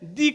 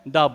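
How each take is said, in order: First: The word ends in a long 'ee' vowel. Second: The word ends in a short 'uh' vowel. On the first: It comes before a word starting with a vowel sound. "अगर किसी English word का उच्चारण अ आ से लेके ऊ तक रहे और ए से लेके अंका तक रहे, उसके पहले अगर टी एच ई हो तो उसको हम क्या कहेंगे, दी कहेंगे" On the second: It comes before other words. "और बाकी के पहले क्या होगा तो क्या बोलेंगे, द बोलेंगे"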